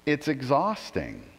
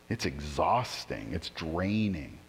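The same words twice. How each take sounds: First: Said in the usual way. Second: Softer, lower, slow and spent; weary, quiet. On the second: Real, not acted. Pastor to congregation about trying to be good, softer, lower and slow. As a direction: let it sag out of you, worn down.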